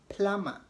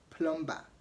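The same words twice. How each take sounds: First: The first vowel is an 'uh' sound. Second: The first vowel is an 'oh' sound. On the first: The speaker calls it right. "it is pronounced as A" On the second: The speaker calls it wrong. "and not plumber"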